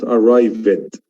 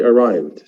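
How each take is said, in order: First: The ending is said as an extra syllable. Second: The ending is a plain d sound. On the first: The speaker calls it wrong. "not arrived ... adding more sounds is something not good" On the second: The speaker calls it right. "I arrived"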